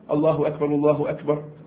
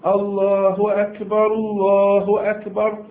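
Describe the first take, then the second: First: The phrase is said quickly and briskly. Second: The phrase is said slowly and unhurriedly. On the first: This is how the call to begin prayer is given. "في سرعة" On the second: This is how the call to prayer is given. "في ترسل"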